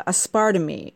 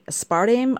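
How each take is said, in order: First: Aspartame said as "as-PAR-ta-mee" with a final ee; trying out aspartame ending in mee; unsure pronunciation. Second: Aspartame said as "as-PAR-tame" rhyming with game, rising; testing aspartame ending in tame; second try at pronouncing. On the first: Vlogger guessing aloud how to say the sweetener. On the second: Vlogger trying a second way to say the sweetener. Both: Real, not acted. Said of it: "How do you say that crazy word?".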